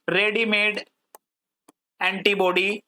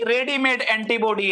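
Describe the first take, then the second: First: Word by word with a long pause; slow dictation. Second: Said in the usual way. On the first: Shown as a demonstration. Teacher noting a definition for students, paused dictation. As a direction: say each word separately, as if writing it.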